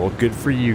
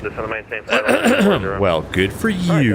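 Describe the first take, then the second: First: It is read in a plain, straight tone. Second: It is read in a mocking, sarcastic tone.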